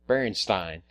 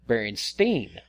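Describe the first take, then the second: First: The ending sounds like the end of Frankenstein. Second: The ending does not sound like Frankenstein. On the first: The speaker calls it wrong. "had pronounced it like Frankenstein" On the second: The speaker calls it right. "it's pronounced Berenstein"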